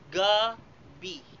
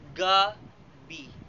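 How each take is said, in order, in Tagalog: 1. Nasa unang pantig ang diin. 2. Nasa unang pantig ang diin.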